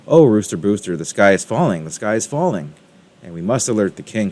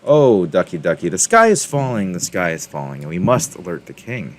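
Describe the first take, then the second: First: Hen urging, a touch louder on the oh; light storybook panic, not a real cry; mild alarmed cry. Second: Mild exclamation. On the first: Henny Penny warning Rooster Booster, mild alarmed cry. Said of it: "she cried". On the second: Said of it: "Henny Penny exclaimed". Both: A narrator's reading.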